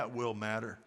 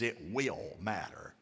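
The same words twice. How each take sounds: First: Said in the usual way. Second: "will" held long and slow, kept low; quiet, deliberate weight on "will"; stress on "will". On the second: Shown as a demonstration. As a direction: put the emphasis on "will", slowly. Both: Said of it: "Put will emphasis".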